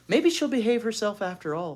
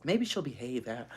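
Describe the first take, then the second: First: Put-on higher hopeful girl; hope aloud she'll be good; hopeful thought. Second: Said in the usual way. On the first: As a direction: Beezus hopes Ramona behaves, higher. Beezus thinks hopefully.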